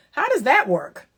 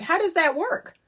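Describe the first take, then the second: First: Said in the usual way. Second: "How does that work?" with "does" leaned on and a higher, rising end; pointed question. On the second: Shown as a demonstration. Asking the man how it works, pointed and rising. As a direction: ask "does" pointedly, pitch lifting at the end. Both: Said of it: "That's exactly how I say it".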